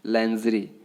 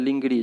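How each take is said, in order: First: The word begins with 'lan' and a soft j. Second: The word begins with 'ling' and a hard g. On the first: The speaker calls it right. "लैंजरी होता है ना" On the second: The speaker calls it wrong. "जो कि तरीका गलत है"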